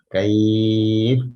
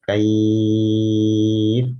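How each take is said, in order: First: The long vowel is held for four counts. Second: The long vowel is held for six counts. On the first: "empat harokat" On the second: "enam harokat"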